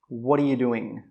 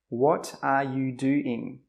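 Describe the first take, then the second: First: The words run together into connected sounds. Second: Each word is said separately and clearly. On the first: "All the sounds come together" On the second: "This is how a non-native speaker would say it"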